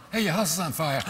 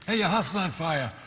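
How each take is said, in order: First: Alarmed shouted warning; urgent shout. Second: Said in the usual way. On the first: Shown as a demonstration. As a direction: yell it like the house is really burning. Urgent second take, shout heard.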